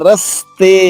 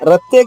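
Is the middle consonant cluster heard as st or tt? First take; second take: st; tt. First: The middle sounds are s followed by t. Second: The middle sounds are a doubled t. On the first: The speaker calls it right. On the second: The speaker calls it wrong. "రత్తే కాదు"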